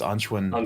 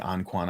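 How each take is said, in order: First: The name is said with a Chinese pronunciation. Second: The name is said with an English-style pronunciation. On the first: The speaker calls it right. "the Chinese pronunciation" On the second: The speaker calls it wrong. "I know it's not pronounced that way"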